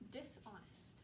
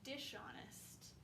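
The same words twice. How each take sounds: First: It splits as dis plus honest, silent h. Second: The s and h merge into an sh sound. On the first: The speaker calls it right. "so it's dis and then honest" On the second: The speaker calls it wrong. "it's not dishonest, right? Even though normally S and H work together to say sh"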